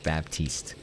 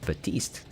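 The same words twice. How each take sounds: First: "Baptiste" with the p pronounced, bap-TEEST; P sounded in Baptiste. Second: "Batiste" without any p, ba-TEEST; silent P. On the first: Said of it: "That's how me and all my friends were pronouncing it". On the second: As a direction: drop the p, saying "Batiste". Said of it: "The P is silent". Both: Shown as a demonstration.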